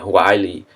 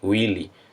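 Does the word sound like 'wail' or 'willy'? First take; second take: wail; willy. First: It is said like 'wail', with an 'eye' vowel. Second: It is said like 'willy', with an 'ee' vowel. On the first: The speaker calls it right. "Falem o, a, a pronúncia correta" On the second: The speaker calls it wrong. "não falem willy"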